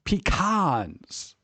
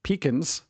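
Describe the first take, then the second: First: Pecans said pi-KAHNS, stretching the A; pecans, long A. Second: Pecans said pee-kuhns, stress first; pecans, PEE-cuns. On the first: Streamer mocks people who lean on the A in pecans. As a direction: really go after the A in Pecans. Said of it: "really go after that A". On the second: Streamer lists how some people say pecans, pee-kuhns. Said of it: "some people say". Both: Shown as a demonstration.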